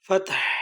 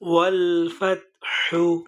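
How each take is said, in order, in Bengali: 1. শব্দটি কোনো স্বরধ্বনি ছাড়া h দিয়ে শেষ হয়। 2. শব্দটি h-এর পরে একটি হ্রস্ব স্বরধ্বনি দিয়ে শেষ হয়।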